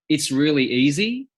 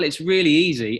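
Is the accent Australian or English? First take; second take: Australian; English. First: It is spoken in an Australian accent. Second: It is spoken in an English accent.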